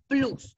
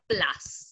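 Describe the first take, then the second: First: It is read aloud with Spanish sounds. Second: It is said with English sounds. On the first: "nosotros lo pronunciamos plus, como lo leemos" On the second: "en inglés se pronuncia plus"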